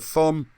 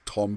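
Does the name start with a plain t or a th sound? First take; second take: th; plain t. First: The name starts with a th sound. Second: The name starts with a plain t sound. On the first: "I pronounce it that way to remember the H" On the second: "I think it's Tom"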